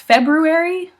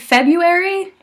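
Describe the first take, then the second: First: Every sound in the middle is pronounced. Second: One sound in the middle is dropped. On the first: The speaker calls it right. "it's February" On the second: The speaker calls it wrong. "It's not technically February"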